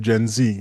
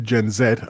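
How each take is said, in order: First: The letter is pronounced zee, American style. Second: The letter is pronounced zed, British style. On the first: "because it came from across the pond" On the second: "British English would say Gen Z"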